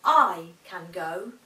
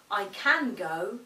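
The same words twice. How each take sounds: First: "I" pressed hard, slow and low; slow "I can go" with weight on "I"; stress on I. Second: "can" stressed, slow; weight on "can" in "I can go"; slow "I can go" leaning on "can". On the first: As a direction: lean on "I" in "I can go". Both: Shown as a demonstration. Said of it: "We could say".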